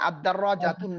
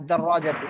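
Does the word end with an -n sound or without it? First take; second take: with n; without n. First: The word ends with an -un sound. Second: The word ends with a plain -u sound. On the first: The speaker calls it wrong. "আলিফ লাম আসলে কিন্তু তানবিন হবে না" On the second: The speaker calls it right. "এক পেশ বলতে হবে"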